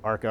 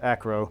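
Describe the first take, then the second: First: The name is said as Arco. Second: The name is said as Acro. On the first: The speaker calls it wrong. "I always say that wrong" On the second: The speaker calls it right. "It's Acro"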